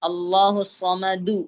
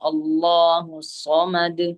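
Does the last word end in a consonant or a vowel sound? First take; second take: vowel; consonant. First: The last word ends with a short u vowel. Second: The last word ends sharply on the consonant d. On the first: "അവിടെ ദമ്മു വന്നു" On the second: "ആ ദമ്മിനെ ഉച്ചരിക്കാതെ സുക്കൂൻ ചെയ്യണം"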